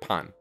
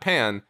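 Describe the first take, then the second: First: It is pronounced like the Japanese word pan. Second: It is pronounced like the English word pan. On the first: "based off of the Japanese word for bread" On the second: "not pan"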